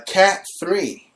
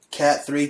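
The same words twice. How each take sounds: First: Slow, drawn-out announcer on Cat three; dramatic news read. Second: Said in the usual way. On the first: Acted. Host reading trending hurricane news, slow mock announcer. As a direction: stretch Cat three like a breaking-news tease.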